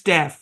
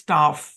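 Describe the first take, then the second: First: The vowel is a flat 'a' as in cat. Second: The vowel is a broad, open 'ah' sound. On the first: "American ইংলিশে এর উচ্চারণ" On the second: "British ইংলিশে এর উচ্চারণ"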